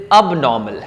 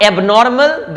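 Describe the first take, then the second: First: "abnormal" as ub-NAW-mul, silent r; slow "abnormal" with short "uh" start, no r; correct pronunciation. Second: "abnormal" as AYB-nor-mal with sounded r; slow "abnormal" starting on an "ay" vowel; wrong pronunciation. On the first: Teacher modelling for learners, "abnormal" as ub-NAW-mul. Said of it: "this is abnormal". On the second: Teacher showing learners the mistake, "abnormal" as ayb-NOR-mal. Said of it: "Not abnormal". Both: Shown as a demonstration.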